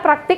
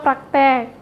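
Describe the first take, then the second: First: The second syllable has an i vowel. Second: The second syllable has an e vowel. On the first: The speaker calls it right. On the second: The speaker calls it wrong.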